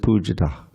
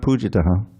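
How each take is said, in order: First: The word ends on the h, no extra vowel. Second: An extra vowel is sounded after the final h. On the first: The speaker calls it right. "it's just pujitah" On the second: The speaker calls it wrong. "It's not pujitaha"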